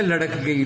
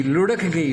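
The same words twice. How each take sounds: First: لڑک گئی said as larak gayi, with an a after the l; the everyday wrong لڑک, larak; common mispronunciation. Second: لڑک گئی said as lurhak gayi, with a u after the l; correct pronunciation. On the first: Urdu teacher quoting the common wrong لڑک گئی. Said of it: "عام طور پہ کہتے ہیں". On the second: Urdu teacher correcting students to lurhak gayi. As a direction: give لڑک carefully as lurhak. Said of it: "عام طور پہ کہتے ہیں لڑک گئی". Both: Shown as a demonstration.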